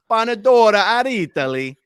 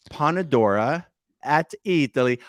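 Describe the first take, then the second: First: Mock Italian flourish. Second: Said in the usual way. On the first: Exaggerated repeat of name.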